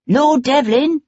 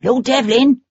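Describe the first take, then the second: First: Higher, urgent anxious shout of a name; high-pitched anxious call. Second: Lightly voiced high, anxious man calling out; high-pitched anxious call. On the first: Magistrate hailing Sebastian from a hackney, anxious and high. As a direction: hail him again, pitched up and worried. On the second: Man in a hackney calls anxiously to Lord Devlin. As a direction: call his name up high, worried. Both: A narrator's reading. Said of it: "a man's high-pitched, anxious voice".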